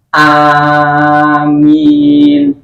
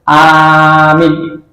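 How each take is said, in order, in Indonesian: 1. Kedua vokal diucapkan sama panjang. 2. Satu vokal panjang, satu vokal pendek. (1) "Dua panjang semua, sama panjangnya" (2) "Tidak yang satu panjang, satu pendek"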